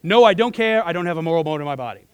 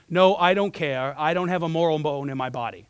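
First: Quick, firm reply. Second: Measured quote of a firm refusal; firm reply. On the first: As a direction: fire back his answer without hesitation. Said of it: "that's how he answered that question". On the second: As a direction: retell his firm answer, taking time on the first words. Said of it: "a quick one and a very firm one". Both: Retold or imitated.

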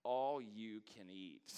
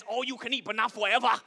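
First: "All you can eat" read out slowly and reverently, falling off "all"; awed, slow reading of the neon sign; slow awe. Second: "All you can eat" high and loud in a put-on Asian accent; the buffet sign read in a mock Asian accent. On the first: Retold or imitated. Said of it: "And they said". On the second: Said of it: "Sign says".

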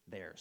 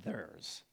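First: Said in the usual way. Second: Soft, slow Arkansan accent on "theirs". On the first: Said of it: "Theirs, sorry". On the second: Real, not acted. Preacher quoting a gracious speaker, Arkansan accent on "theirs". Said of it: "that's my Arkansan accent".

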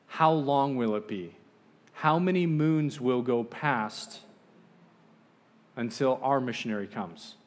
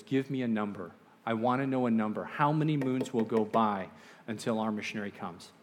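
First: Slow, emphatic, raised questioning; insistent demand. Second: Understated retold agitation, firm; agitated demand. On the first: Retold or imitated. Tribal chief pressing the visitor for an answer, slow insistent demand. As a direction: press each word out slowly and firmly. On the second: Agitated chief demanding a number, understated insistence. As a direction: press for a number with mild irritation. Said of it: "He's getting agitated".

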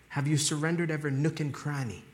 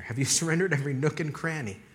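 First: Accidental hint of British accent; slight British accent. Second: Said in the usual way. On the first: Real, not acted. Preacher asking about full surrender, slight British accent. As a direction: let a touch of British slip in. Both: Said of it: "I don't know why I sounded British there".

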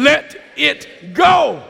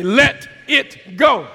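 First: Loud, high, slow rallying shout; big, drawn-out enthusiastic shout; with enthusiasm. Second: Loud, slow call for repetition; measured preacher's prompt; congregational call. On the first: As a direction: belt out each word to rouse the congregation. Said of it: "Say it with me with some enthusiasm". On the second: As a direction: say it loudly, one word at a time. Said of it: "Come on, say it with me". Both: Shown as a demonstration.

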